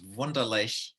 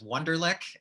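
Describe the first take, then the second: First: It is said with a German pronunciation. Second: It is said with an American English pronunciation. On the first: "in German it's" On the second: "here in America we pronounce it as ugly as we can"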